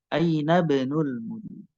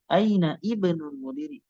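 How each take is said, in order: First: The i is dropped, linking straight into b. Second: The i at the word start is pronounced. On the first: The speaker calls it right. "langsung ke ba huruf ba karena hamzahnya jadi mati" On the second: The speaker calls it wrong. "Jadi bukan aina ibnul mudiri, tidak"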